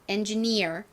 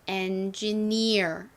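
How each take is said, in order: First: The word is said at normal speed. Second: The word is said slowly and drawn out.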